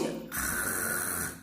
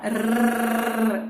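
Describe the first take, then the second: First: Soft voiceless guttural R, held long; throaty R. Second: Tongue-tip trilled R, held long. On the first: Teacher demonstrates the strong R, throaty rasp. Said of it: "treme na garganta". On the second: Teacher demonstrates the single R, trilled. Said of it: "a língua treme lá na ponta do dente". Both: Shown as a demonstration.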